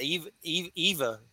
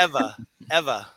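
First: EVA tried as "EE-vuh", starting "Eve, Eve"; hesitant attempts at Eva with a long ee; mispronounced name. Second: EVA said "EH-vuh", short e; corrected name. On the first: Host unsure of guest's name, Eva mispronounced "EE-vuh". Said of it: "I think I just ruined it". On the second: Host echoing guest's correction, Eva as "EH-vuh". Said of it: "It's Eva". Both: Real, not acted.

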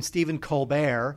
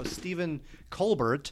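First: COLBERT said "col-BEAR", silent T; fancier pronunciation. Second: COLBERT said "COAL-bert", T sounded; original pronunciation. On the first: Co-host explaining the name change, Colbert as col-BEAR. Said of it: "become more of a thing". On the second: Co-host telling the origin story, Colbert as COAL-bert. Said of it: "if he became Stephen Colbert". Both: Shown as a demonstration.

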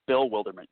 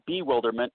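First: "Bill Wildermunt" as two words, with a full "Bill"; correct name reading. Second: "bewilderment" said as one ordinary word, be-WIL-der-ment; wrong name reading. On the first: Guest clarifying his web address for listeners, corrected name reading. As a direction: say "Bill Wildermunt" with the L of "Bill" sounded before "Wildermunt". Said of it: "it's Bill Wildermunt". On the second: Guest warning listeners off the wrong web address, mistaken name reading. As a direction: say "bewilderment" with a short "be" at the front. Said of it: "It's not bewilderment".

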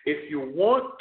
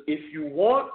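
Both takes have the same delivery.

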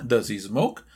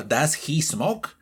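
First: "Does he smoke" as "daz-i smoke", lower; linked Z. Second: "does he smoke" with a clear rasped H; unlinked form. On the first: Teacher contrasting two pronunciations, linked form. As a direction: drop HE's H and join it to DOES. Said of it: "Suena muy distinto". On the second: Teacher showing the contrasting form, unlinked words. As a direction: keep DOES, HE and SMOKE separate. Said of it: "Suena muy distinto a". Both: Shown as a demonstration.

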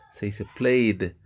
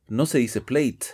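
First: Played slowly, with a voiced d at the end; correct pronunciation. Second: Plate with a hard final t, as in plate; wrong pronunciation. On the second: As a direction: say plate ending in a crisp t. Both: Shown as a demonstration.

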